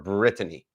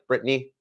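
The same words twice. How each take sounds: First: The name is said with three syllables. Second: The name is said with two syllables. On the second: "two syllables"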